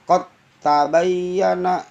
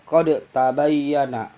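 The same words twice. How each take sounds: First: The d of qad merges into the t. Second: The d of qad is pronounced separately. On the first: The speaker calls it right. "Dalnya masuk ke ta" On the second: The speaker calls it wrong. "nggak boleh"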